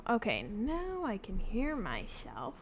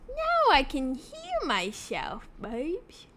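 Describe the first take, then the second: First: Said in the usual way. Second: Playful sing-song. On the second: Real, not acted.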